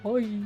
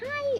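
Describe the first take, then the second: First: It is said in a very low pitch. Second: It is said in a very high pitch.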